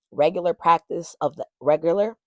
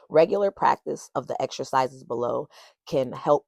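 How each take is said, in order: First: Tripping over words with a tongue ring; speech tangled by a tongue ring; tongue piercing. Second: Said in the usual way. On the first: Real, not acted. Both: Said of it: "sorry, this damn tongue ring".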